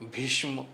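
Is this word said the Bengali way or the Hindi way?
Hindi. It is said with a Hindi pronunciation. "হিন্দিভাষীরা সেটাকে বলেন"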